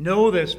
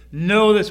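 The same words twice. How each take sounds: First: "know" punched, louder; stress on know. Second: "know" punched loud and higher; stress on know. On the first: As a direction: hit "know" hard. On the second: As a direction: drive "know" home. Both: Shown as a demonstration. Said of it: "I'm emphasizing know".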